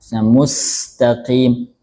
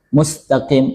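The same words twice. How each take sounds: First: The s hiss flows on, with ample airflow. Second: The s hiss is short, with little airflow. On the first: The speaker calls it right. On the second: The speaker calls it wrong.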